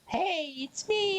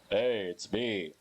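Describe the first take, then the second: First: It is said in a very high voice. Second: It is said in a deep, brooding voice.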